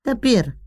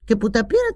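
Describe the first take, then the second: First: "Τα πήρα" with a short falling close on "πήρα"; dismissive statement. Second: "Και που τα πήρα" with "πήρα" lifted in a questioning rise; rising scoff. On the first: Mother answers about her pills, flat fall. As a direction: drop "πήρα" flatly, matter-of-fact. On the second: Mother scoffs at her pills, rising tune. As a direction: lift "πήρα" upward, sceptical. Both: Acted.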